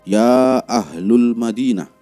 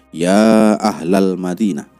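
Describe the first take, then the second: First: The vowel after 'Ahl' is 'u'. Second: The vowel after 'Ahl' is 'a'. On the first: The speaker calls it wrong. "sering salah bicara" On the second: The speaker calls it right. "harokat yang benar itu adalah"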